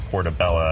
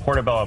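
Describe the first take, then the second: First: The word ends with an 'a' sound. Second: The word ends with an 'o' sound.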